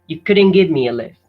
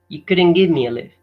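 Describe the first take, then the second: First: Sounds are reduced and the final T dropped. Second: The same.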